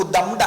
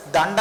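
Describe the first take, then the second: First: దండ mispronounced with an m, as dam-da; wrong nasal demo. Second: దండ with a retroflex n before the d; nasal matched to consonant. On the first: Teacher showing what student does not say, m for n. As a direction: close the lips on an m before the d in దండ. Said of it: "దండ అనట్లేదు కదా". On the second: Teacher showing student the usual n sound, correctly pronounced. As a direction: curl the tongue for the n in దండ, as dan-da. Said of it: "నకారమే పలుకుతావు నువ్వు". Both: Shown as a demonstration.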